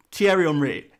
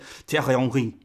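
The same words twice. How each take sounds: First: Said in the usual way. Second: Lower, throaty French r's in THIERRY HENRY; French accent. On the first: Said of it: "every time someone said the word". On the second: Acted. YouTuber imagining someone switching to French mid-sentence, mock French accent. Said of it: "let's think of a French player".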